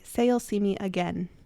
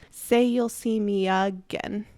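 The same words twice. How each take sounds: First: The stress in 'again' is on the second syllable. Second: The stress in 'again' is on the first syllable. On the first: The speaker calls it right. "Emphasis in again is on the second syllable. It's louder and it's stronger than the first syllable" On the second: The speaker calls it wrong. "the emphasis is on the wrong syllable of the word"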